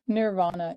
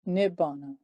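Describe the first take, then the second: First: The middle has an r followed by v. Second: The middle has a double b sound. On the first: The speaker calls it wrong. "Nirvana is the wrong pronunciation" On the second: The speaker calls it right. "the true root, which is Nibbana"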